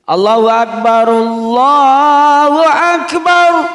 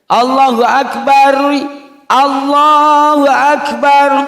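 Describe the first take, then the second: First: The first Akbar is joined to the next phrase. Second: The first Akbar stops before the next phrase. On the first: The speaker calls it right. "Cara mewasolkannya itu begini" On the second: The speaker calls it wrong. "Nanti ada yang baca gini ... ini harus direvisi"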